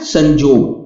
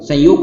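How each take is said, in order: First: The middle consonant is a 'j' sound. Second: The middle consonant is a 'y' sound. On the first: This is the Nagpuri form. "Nagpuri में संयोग को संजोग लिखेंगे और पढ़ेंगे भी" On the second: This is the standard Hindi form. "संयोग क्या बन जाता है"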